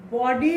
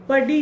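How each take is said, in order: First: बॉडी with a rounded "aw", like "baw-dee"; careful "BAW-dee" for बॉडी; correct rounded O. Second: बडी with short "uh", like "buddy"; quick short first vowel in बडी; wrong short vowel. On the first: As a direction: model बॉडी with a long "aw" first vowel. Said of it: "बॉडी होता है". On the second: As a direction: show the mistake, बडी as "BUH-dee". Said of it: "बडी नहीं होता". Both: Shown as a demonstration.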